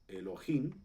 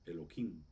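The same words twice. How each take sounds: First: The middle consonant is an h sound. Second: The middle consonant is a k sound. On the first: "pronuncian Elohim" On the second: "lo que hacen es poner una, una Kuf"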